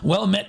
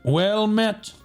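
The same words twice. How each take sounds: First: It is said in his plain, normal voice. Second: It imitates a World of Warcraft paladin's voice.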